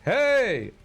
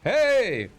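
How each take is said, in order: First: It is called in a full shouted voice. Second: The same.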